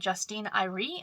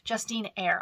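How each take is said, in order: First: The surname is said with two syllables. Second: The surname is said with one syllable. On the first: The speaker calls it wrong. "not Irie" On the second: The speaker calls it right. "I was pronouncing her name wrong"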